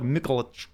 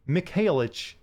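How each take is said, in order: First: The name is said with a Russian accent. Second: The name is said with an English accent. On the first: The speaker calls it right. "you kind of have to use a Russian accent" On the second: The speaker calls it wrong. "if you say this in English, it's like"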